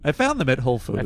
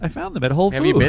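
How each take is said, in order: First: The voice goes down at the end. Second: The voice goes up at the end. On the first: "If I went down, I would have went" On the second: "You have to go up at the end"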